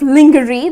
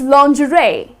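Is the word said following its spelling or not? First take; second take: following spelling; not following. First: It is sounded out as spelled. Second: It is not sounded out as spelled. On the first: The speaker calls it wrong. "if you look at the spelling, it's kind of lingerie. That's how people tend to pronounce it" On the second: The speaker calls it right. "The correct pronunciation is lingerie"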